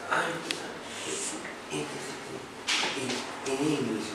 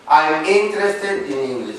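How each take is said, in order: First: It is said hesitantly, repeating words. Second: It is said smoothly and confidently.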